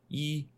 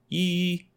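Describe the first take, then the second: First: The flat pitch sits low, at speaking level. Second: The flat pitch sits high, near the top. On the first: The speaker calls it wrong. "but I was doing it down lower, like" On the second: The speaker calls it right. "But it's supposed to be, yee, like up there"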